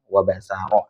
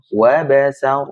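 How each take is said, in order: First: The word ends with a vowel after the r. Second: The word ends on the r without a vowel. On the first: The reading continues into the next word. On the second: The reading stops at this word. "sekarang kita wakafkan misalkan"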